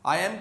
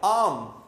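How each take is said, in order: First: The two words are said fully and separately. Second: The two words are merged into one syllable. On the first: "subjective pronoun और बी को आपस में मिला देते हैं" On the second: "मिला के"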